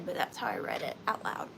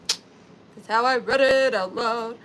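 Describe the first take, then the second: First: Said in the usual way. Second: Loud, slow put-on voice; playful, drawn-out proclamation; mock out-loud reading. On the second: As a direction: declaim it loudly, dragging the words.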